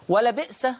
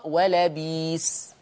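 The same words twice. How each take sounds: First: "ولبئس" as wa-la-bi'sa; short i, then hamza in "ولبئس"; vowelless hamza. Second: "ولبيس" very slowly as wa-la-biis; hamza turned to yaa. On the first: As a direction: glottal catch after bi in "ولبئس". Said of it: "الهمزة دي ساكنة". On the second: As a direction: draw out long ii in "ولبيس". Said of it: "الياء، ولذلك تقرأ". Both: Shown as a demonstration.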